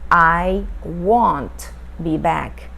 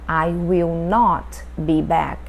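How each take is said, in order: First: Will and not are joined into one word. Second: Will and not are said as two full words.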